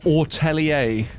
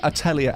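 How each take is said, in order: First: The first syllable has a long 'or' vowel. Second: The first syllable has a short 'ah' vowel. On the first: "not ortelier, like how she says it" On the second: "I swear it's like meant to be atelier"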